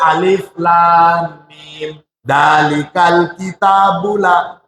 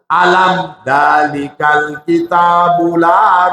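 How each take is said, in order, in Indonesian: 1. Huruf pembuka dieja menurut namanya. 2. Huruf pembuka dibaca sebagai satu kata. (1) "Yang di sini kita baca alif lam mim" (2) "Kita nggak baca"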